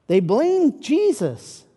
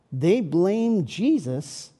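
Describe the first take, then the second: First: "blamed" stressed, higher and louder, slow; repeating the accusation with weight; emphatic repeat. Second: Said in the usual way. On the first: Shown as a demonstration. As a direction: lean hard on "blamed".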